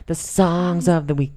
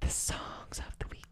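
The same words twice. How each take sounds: First: Said in the usual way. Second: Hushed unvoiced whisper. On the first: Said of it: "'Cause I thought it was funny". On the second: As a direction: breathe it out in a whisper. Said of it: "Why are you whispering?".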